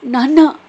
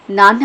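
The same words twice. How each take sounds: First: High, loud cry of nanna; anguished scream. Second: Shout from a nightmare. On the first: Daughter crying out to her dead father, loud scream. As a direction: shriek it as her father dies. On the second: Daughter waking from nightmare, shouting for father. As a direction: jolt awake calling out. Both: Acted. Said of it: "గట్టిగా అరుస్తూ".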